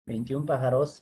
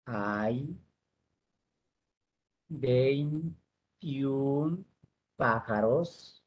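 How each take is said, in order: First: Said in the usual way. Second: One word at a time, long pauses; word-by-word dictation. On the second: Shown as a demonstration. Teacher dictating a sentence to the class, word by word. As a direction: dictate slowly, stretching each word.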